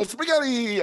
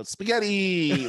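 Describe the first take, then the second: First: High, loud taunting Spaghetti; dad taunting his son, high loud Spaghetti; teasing singsong. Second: Slow, loud teasing Spaghetti; dad drawing out Spaghetti to tease his son; drawn-out threat. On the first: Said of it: "I go". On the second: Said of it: "like that". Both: Retold or imitated.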